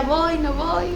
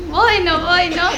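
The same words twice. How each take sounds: First: Hesitant dithering. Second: Louder hesitant dithering. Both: Retold or imitated. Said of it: "Y yo decía".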